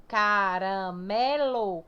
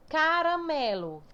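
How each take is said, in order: First: "caramelo" stretched out syllable by syllable; very slow, deliberate ca-ra-me-lo; split into syllables. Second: Said in the usual way. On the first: Shown as a demonstration. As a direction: break "caramelo" into long separate syllables, leaning on ME. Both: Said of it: "Qual é a mais forte?".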